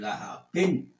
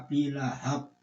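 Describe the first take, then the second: First: The word links on with an added -in ending. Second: The word ends in a full stop, unlinked. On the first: "boleh kamu gandeng" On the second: "boleh sampean baca"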